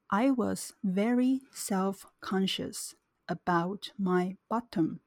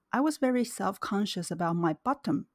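First: It is read at a slow, careful speed. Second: It is read at a normal speaking speed. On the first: "接下来是慢速版本。" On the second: "那我先念正常语速。"

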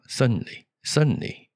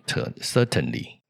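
First: The middle t is swallowed and passed quickly. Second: The middle t is clearly and fully pronounced. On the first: "certainly 很快的带过" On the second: "就不用certainly"

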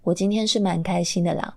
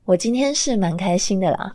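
First: It is said flat, with no expression. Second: It is said with a smile in the voice.

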